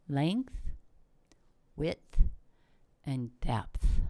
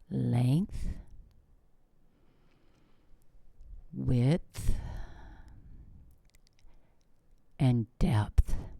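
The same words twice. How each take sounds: First: The words are said at a normal pace. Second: The words are said slowly and deliberately.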